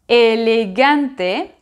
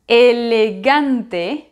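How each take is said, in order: No difference in how they are said.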